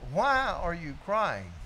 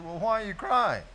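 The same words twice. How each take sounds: First: Slow, each word leaned on; slow insistent repeat. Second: Said in the usual way. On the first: Retold or imitated. Pressing Bootsy again, slow and insistent. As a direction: press the question home slowly. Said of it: "Let me ask you one more time". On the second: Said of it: "I said".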